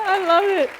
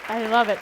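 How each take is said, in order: First: High and louder, laughing; laughing delight. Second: Said in the usual way. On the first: Real, not acted. Telling the audience she loves it, laughing. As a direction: gush with delight. Laughing joy then repeated.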